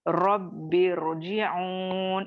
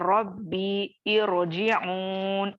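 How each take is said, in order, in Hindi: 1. दोनों शब्द बिना रुके एक साथ जुड़कर बोले जाते हैं। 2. दोनों शब्द रुककर, अलग-अलग बोले जाते हैं।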